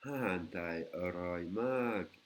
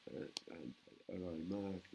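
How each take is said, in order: First: Slow Thai demo. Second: Said in the usual way. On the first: Shown as a demonstration. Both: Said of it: "la nourriture thaï est délicieuse".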